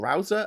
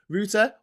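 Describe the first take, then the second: First: The word has an American pronunciation. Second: The word has a British pronunciation.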